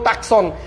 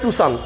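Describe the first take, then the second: First: It is said with a 'k', as 'tak-son'. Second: It is said without a 'k', as 'too-san'. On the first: The speaker calls it wrong. "কেউ টাকসন" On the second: The speaker calls it right. "ওটার নাম হচ্ছে টুসান"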